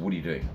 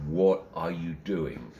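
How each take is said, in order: First: Said in the usual way. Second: "What are you doing" drawn out slowly, word by word; insistent repeat. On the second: Retold or imitated. Star questions an intruder on stage, "What are you doing" slow and insistent.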